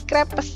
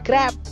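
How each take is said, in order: First: It is read with Indonesian-style spelling pronunciation. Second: It is said with French pronunciation. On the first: The speaker calls it wrong. "Bacanya jangan lagi crepes ya" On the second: The speaker calls it right. "tapi crepe"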